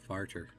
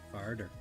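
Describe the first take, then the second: First: The middle consonant sounds like a T. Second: The middle consonant sounds like a D. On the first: The speaker calls it wrong. "Not farter" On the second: The speaker calls it right. "it's farther with D's"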